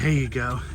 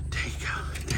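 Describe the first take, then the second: First: Said in the usual way. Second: Soft whisper to the goat; whispered reassurance to an animal. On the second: Real, not acted. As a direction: breathe it gently, no voice.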